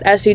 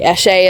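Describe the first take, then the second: First: The name is said in an Americanized way. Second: The name is said in its original way. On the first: The speaker calls it wrong. "I pronounce it Essie just because I'm an American and I have a hick accent" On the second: The speaker calls it right. "it's actually Eshe is how it's pronounced"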